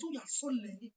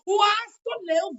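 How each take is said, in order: First: Said in the usual way. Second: Louder, drawn-out scolding; loud slow scold. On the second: Acted. Scolding someone for being late, louder and slower. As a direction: stretch out the scolding words.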